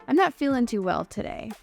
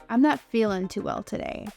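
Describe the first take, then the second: Both takes have the same delivery.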